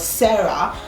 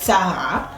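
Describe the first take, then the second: First: The name is said with English pronunciation. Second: The name is said with German pronunciation. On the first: "in English" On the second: "a German would pronounce it as Sarah"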